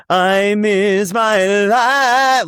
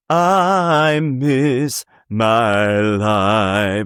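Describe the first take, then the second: First: High, slow, showstopper finish; sing-speak it like a big finale; hammed-up showstopper ending; big belted ending. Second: Very slow, stretched-out line; plain slow read; drawn out. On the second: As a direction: draw every word out slowly. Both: Shown as a demonstration. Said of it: "instead of".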